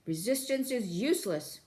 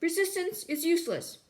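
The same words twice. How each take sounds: First: Robotic guard bark; guard shouting. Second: High, loud robotic shout; guard shouting again. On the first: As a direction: bark the order like a bored guard. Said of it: "the guard shouting again". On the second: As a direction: shout the stock phrase louder. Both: Acted.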